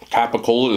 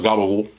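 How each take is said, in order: First: It is said in a standard way. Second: It is said in an Italian-American way.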